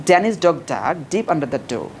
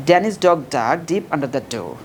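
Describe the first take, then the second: No difference in how they are said.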